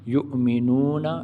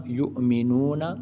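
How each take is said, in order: No difference in how they are said.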